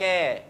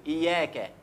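First: إياك with a held, doubled ya. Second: إياك with a single, light ya; wrong light ya. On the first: Teacher stressing the doubling for students, ya held. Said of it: "لازم توضح التشديد". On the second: Teacher showing students the common mistake, ya not doubled. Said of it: "ممكن ما نشددش الياء". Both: Shown as a demonstration.

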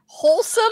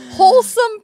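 First: "wholesome" said a little higher; mild stress. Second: "wholesome" belted high and loud; stress. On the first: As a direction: ease into "wholesome" lightly. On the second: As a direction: punch "wholesome" hard and high. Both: Shown as a demonstration.

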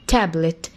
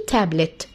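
The two takes are said the same way.

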